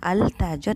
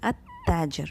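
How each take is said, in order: First: The l of the article is clearly pronounced. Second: The l blends into the following consonant. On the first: The speaker calls it wrong. "it's not Al-Tajir" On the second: The speaker calls it right. "it is At-Tajir"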